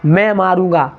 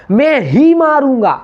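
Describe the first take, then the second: First: Said in the usual way. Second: ही hit high and loud, slowly; stress on ही. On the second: Shown as a demonstration. Teacher demonstrating stress on ही to students, loud and slow. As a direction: punch ही in "मैं ही मारूंगा". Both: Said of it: "जब शब्द पे जोर डालते हैं".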